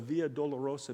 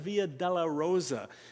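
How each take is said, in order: First: The middle sounds like 'Dolorosa', one word. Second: The middle sounds like 'della Rosa', two words. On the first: The way of sorrows. The speaker calls it right. "But Dolorosa, Via Dolorosa, means the way of sorrows" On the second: The way of roses. The speaker calls it wrong. "not the Via della Rosa. I've heard that often pronounced that way"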